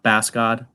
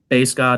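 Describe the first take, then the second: First: The first word rhymes with mass. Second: The first word rhymes with face. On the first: The speaker calls it wrong. "not bass god" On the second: The speaker calls it right. "that's base god"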